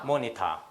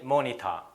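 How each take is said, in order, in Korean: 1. t는 분명한 t 소리입니다. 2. t는 분명한 t 소리입니다.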